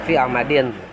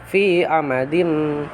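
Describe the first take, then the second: First: The final nasal is a clear n sound. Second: The final nasal is merged into an m sound. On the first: This is the original unmerged form. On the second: The ending blends into the next letter. "Itu idgham. Jadi idgham itu dimasukkan"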